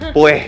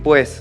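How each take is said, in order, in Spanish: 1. La s final se convierte en una h aspirada. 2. La s final se pronuncia completa. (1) "cortamos las S y metemos J" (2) "en vez de decir pues"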